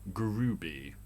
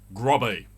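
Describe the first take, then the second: First: The first vowel sounds like 'food'. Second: The first vowel sounds like 'hot'. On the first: It is how locals are said to say it. "Apparently you pronounce it Grooby" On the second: It follows the spelling on the sign. "It says Grobby"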